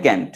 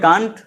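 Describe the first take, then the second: First: ক্যান্ট with a flat a, as in cat; ক্যান্ট with the short American a; American can't. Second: কান্ট with a broad open a, British style; কান্ট with the long British a; British can't. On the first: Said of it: "American ইংলিশে বলি ক্যান্ট". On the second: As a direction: say কান্ট like British English, kahnt. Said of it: "British ইংলিশে বলি আমরা কান্ট". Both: Shown as a demonstration.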